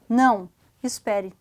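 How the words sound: There is a pause between the two words. The listener should wait because the speaker is coming. "se eu coloco a vírgula, não, espere que eu vou, que eu estou chegando"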